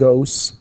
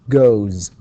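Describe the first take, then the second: First: The ending is a voiceless s sound. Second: The ending is a voiced z sound. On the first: The speaker calls it wrong. "not goes" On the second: The speaker calls it right. "all vowels are voiced. All vowels are uh, voiced, so we say goes"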